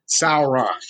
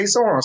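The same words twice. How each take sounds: First: "Sauron" said slowly as sow-er-on, three syllables; "Sauron" drawn out as sow-er-on; careful Sauron. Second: "Sauron" said as two quick syllables, sore-on; "Sauron" clipped to sore-on; easy Sauron. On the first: Explaining the hard pronunciation of Sauron, sow-er-on. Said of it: "It's hard to say Sauron". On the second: Showing the easy way fans say Sauron, sore-on. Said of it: "it's easy to say Sauron". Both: Shown as a demonstration.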